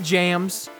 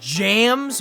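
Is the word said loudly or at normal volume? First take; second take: normal; loud. First: The word is said at normal volume. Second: The word is said much louder.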